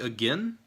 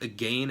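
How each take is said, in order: First: It is said in the speaker's usual way. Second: It is said the way Canadians say it.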